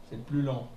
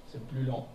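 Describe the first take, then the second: The two takes are said the same way.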